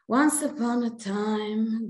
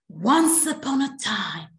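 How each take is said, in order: First: It is told in a flat, dull voice. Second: It is told in a lively, expressive voice.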